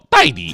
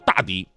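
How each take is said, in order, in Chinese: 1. 第一个音节念 dai。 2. 第一个音节念 da。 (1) "那个大是多音字，又念戴，他让我以后管他叫戴迪" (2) "他根本就不叫大迪"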